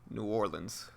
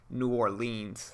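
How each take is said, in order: First: It has other Louisianans' pronunciation. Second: It has an outsider's pronunciation. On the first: The speaker calls it right. "people that live in Louisiana that aren't from New Orleans typically say it" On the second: The speaker calls it wrong. "it's most definitely not New Orleans. That's not how you say it"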